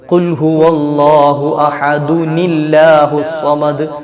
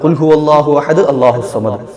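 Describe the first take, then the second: First: Ahad joins allahu through an added n sound. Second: Ahad runs straight into allahu without a break. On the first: The speaker calls it right. "ഒരു നീ ചേർത്തിട്ട് വേണം ഓതേണ്ടത്" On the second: The speaker calls it wrong. "കൂട്ടി ഓതിയതാണ്, ശ്വാസം വിടുന്നില്ലല്ലോ"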